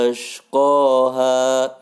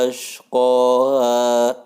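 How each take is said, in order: The two takes are said the same way.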